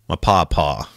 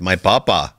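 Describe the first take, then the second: First: It is said in an American Southern accent. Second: It is said in an Indian accent. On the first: The speaker calls it right. "That sounds like a very Southern thing to say" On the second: The speaker calls it wrong. "You can't do it in an Indian accent"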